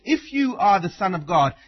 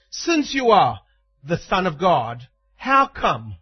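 First: Said in the usual way. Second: "Since" hit firm and louder at the start; stress on Since. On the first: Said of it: "in the way that we'd say". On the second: Shown as a demonstration. Preacher voicing Satan's taunt with "Since" stressed. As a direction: lean on "Since" as a taunting certainty. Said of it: "in the way that we'd say "since".

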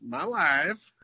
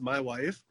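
First: Put-on a light Borat accent on my wife. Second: Said in the usual way. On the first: Quoting Borat in a light Borat accent. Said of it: "tapers off into Borat". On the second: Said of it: "in my head, it's just".

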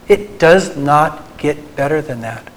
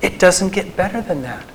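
First: Slow, with "does" and "not" each landed apart; emphatic slowed restatement; stress on does not. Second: Said in the usual way. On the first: Shown as a demonstration. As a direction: spell out "It does not" deliberately, leaning on "does". Repeats line for emphasis.

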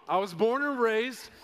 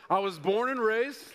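Both takes have the same delivery.

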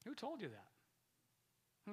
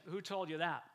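First: Much slower and softer, letting it sink in; slow, soft repeat. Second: Said in the usual way. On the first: Shown as a demonstration. Preacher repeats the Spirit's question slowly and softly for the crowd. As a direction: draw the question out quietly. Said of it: "repeats the question slowly to reflect". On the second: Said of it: "Holy Spirit said".

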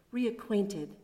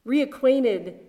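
First: Said in the usual way. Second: Reacquainted said louder, with a firm falling tune; reacquainted punched louder as a preacher's repeat; stress on reacquainted. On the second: Shown as a demonstration. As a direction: lean hard on reacquainted the second time. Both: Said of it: "repeated for emphasis".

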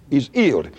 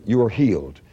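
First: "He's healed" with silent H's; dropped H's. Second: Said in the usual way. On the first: Retold or imitated. Preacher showing Wigglesworth's speech, "He's healed" without any H. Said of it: "he didn't pronounce H's". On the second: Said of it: "that's the way he would say".

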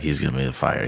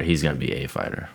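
First: Said in the usual way. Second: "a" set apart and said as "ay"; stress on A. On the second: Real, not acted. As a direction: correct yourself by leaning on "a". Corrects "the" to stressed "a.

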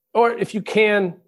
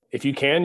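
First: "Or if you can," pitched much higher and slowed, "Or" leaned on; rhetorical rising push. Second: Said in the usual way. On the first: Shown as a demonstration. Speaker challenging listeners to help others, "Or if you can," high and slow.

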